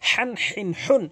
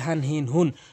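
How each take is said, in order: First: The h-sound is harsh, from mid-throat. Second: The h-sound is light and breathy. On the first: The speaker calls it right. "বড় হা হলকের মাঝখান থেকে" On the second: The speaker calls it wrong. "বলে হান হিন হুন, ছোট হা এনে ফেলে"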